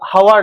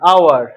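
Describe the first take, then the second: First: The word begins with an h sound. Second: The word begins directly with a vowel. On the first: The speaker calls it wrong. "এটা হাওয়ার নয়" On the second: The speaker calls it right. "আওয়ার, তাহলে আ উচ্চারণ আসছে"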